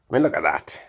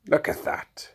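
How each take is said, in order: First: Said in the usual way. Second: Hushed awe. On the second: Shown as a demonstration.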